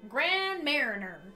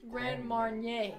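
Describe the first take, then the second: First: The second word sounds like 'mariner'. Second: The second word sounds like 'marn-yay'. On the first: The speaker calls it wrong. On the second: The speaker calls it right.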